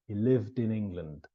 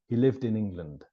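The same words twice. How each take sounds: First: The sentence is said slowly. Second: The sentence is said at normal speed.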